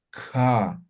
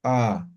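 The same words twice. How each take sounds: First: "Ka" with a breathy puff after the k; aspirated ka. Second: "ka" popped sharply with a glottal catch; explosive ka. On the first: Teacher contrasts aspirated ka for the students. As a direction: let air burst out after "Ka". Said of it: "El aspirada exactamente lo mismo". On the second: Teacher contrasts explosive ka for the students. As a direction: snap "ka" out tight and explosive. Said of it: "Y la explosiva". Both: Shown as a demonstration.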